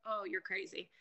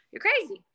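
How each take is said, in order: First: Low, soft, muttered to herself; under her breath, stunned; quiet disbelief. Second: Higher and louder, incredulous; exclaimed disbelief. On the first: Reacting to scammers' money demands, low and soft. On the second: Reacting to women sending money, high exclaimed disbelief. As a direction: burst out in disbelief. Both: Retold or imitated. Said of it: "I'm like".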